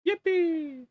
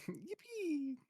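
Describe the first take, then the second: First: High squeaky yippee cheer; yay. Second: High squeaky yippee imitation; yay. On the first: Acted. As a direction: shriek it like a cartoon. Celebrating getting the floor. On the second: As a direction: copy the yippee meme sound. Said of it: "made the yippee sound effect".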